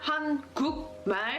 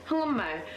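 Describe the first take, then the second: First: The middle consonant is a hard k sound. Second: The middle consonant is a nasal ng sound. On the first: The speaker calls it wrong. "it's not 한국말. The guk, the giok at the bottom, forget that" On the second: The speaker calls it right. "It's not a giok anymore. It's an iung"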